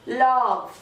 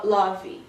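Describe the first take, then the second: First: Love said lov, ending on the V; Love clean, with no vowel after the V; correct pronunciation. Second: Love said lɔvi with an extra final I; the wrong love, adding a trailing vowel; mispronounced love, extra ending vowel; wrong version shown. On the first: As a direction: model Love the right way. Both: Shown as a demonstration. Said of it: "Você não fala love".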